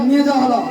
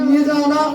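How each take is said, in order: Both takes have the same delivery.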